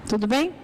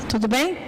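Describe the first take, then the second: No difference in how they are said.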